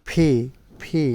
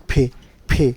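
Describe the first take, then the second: No difference in how they are said.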